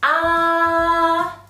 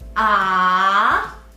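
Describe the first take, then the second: First: The pitch stays high and level throughout. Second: The pitch dips low and then rises. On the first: "The first tone is the high-pitched tone" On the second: "You need to lower the pitch and then raise it"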